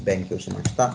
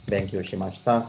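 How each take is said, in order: No difference in how they are said.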